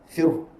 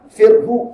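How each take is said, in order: First: The word ends with a short breathy h. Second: The word ends with h plus an added vowel. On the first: The speaker calls it right. "Ha tu kena matikan" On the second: The speaker calls it wrong. "jangan panjang pula. Firhu tak mau dia"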